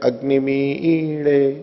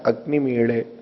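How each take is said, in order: First: The accented vowel is drawn out, said twice over. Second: The accented vowel is said once, kept short.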